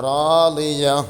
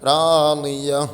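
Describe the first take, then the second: First: The word ends in a silent h sound. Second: The same.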